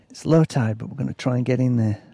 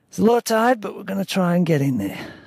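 First: Lightly put-on accent, close to narration; toned-down character accent, nearly the reader's own; Dave. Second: High put-on accent, easing down at the end; Dave. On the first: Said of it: "so I've got to do, like, a different kind of accent". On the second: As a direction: start high in a character accent, then drop. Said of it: "I can't do his accent". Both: A narrator's reading.

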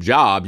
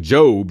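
First: "Job" rhyming with rob; "Job" with a short, open o. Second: "Job" rhyming with robe; "Job" pronounced as jobe; long-o Job. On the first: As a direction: say "Job" like the word for work. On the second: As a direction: say "Job" like the Bible name, long o. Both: Shown as a demonstration. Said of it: "swip the letters around".

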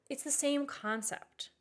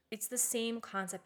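First: Same lifted high and slow; stress on same. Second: Said in the usual way. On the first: Shown as a demonstration. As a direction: stretch out the word same. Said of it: "It's the same concept because".

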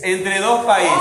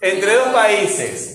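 First: Said in the usual way. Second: Slow, drawn-out reading of the phrase; slow dictation. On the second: Shown as a demonstration. Teacher dictating the phrase to the class, slow. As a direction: read it out slowly so the class can follow. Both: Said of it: "Vamos a ver este grupo acá".

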